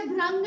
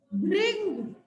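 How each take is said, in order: First: भ्रंग with "ra", as "bhrang"; mispronunciation. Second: भृंग with "ri", as "bhring"; correct pronunciation. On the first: Teacher telling pupils not to say it so, भ्रंग said "bhrang". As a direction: say भ्रंग with an a after r. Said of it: "इसे भ्रंग नहीं कहना". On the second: Teacher correcting the class's pronunciation, भृंग said "bhring". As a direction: model भृंग with a clear i after r. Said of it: "री की मात्रा के साथ". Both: Shown as a demonstration.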